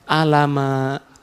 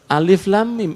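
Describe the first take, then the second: First: The letters are run together as one word. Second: Each letter is named separately by its name. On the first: The speaker calls it wrong. "tapi dia bacanya alama" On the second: The speaker calls it right. "harus dibaca per huruf ... Padahal mestinya apa?"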